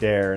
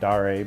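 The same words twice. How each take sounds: First: The name is said in a plain, simple way. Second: The name is said in a fancy, pretentious way. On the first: This is the pronunciation chosen for the name. The speaker calls it right. "I'm going to pronounce it Dare" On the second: This pronunciation would seem too pretentious. The speaker calls it wrong. "I don't want to be too pretentious"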